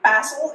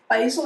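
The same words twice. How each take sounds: First: It is said in a non-American accent. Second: It is said in an American accent.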